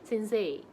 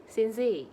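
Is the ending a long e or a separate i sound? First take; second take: long e; long e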